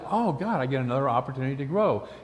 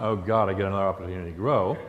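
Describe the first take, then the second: First: It is said in an excited, delighted tone. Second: It is said in a weary, groaning tone. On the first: Growth is welcomed as a gift. The speaker calls it right. "It's a fun dance when you finally realize" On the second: Growth is dreaded as a burden. The speaker calls it wrong. "which we've all said it like that"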